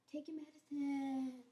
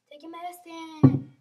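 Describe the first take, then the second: First: Said in the usual way. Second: Much louder, slow insistent order; louder repeat. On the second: Shown as a demonstration. Nurse imitating how they say it, loud slow insistence. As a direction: bark the order slowly. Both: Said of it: "They speak like that".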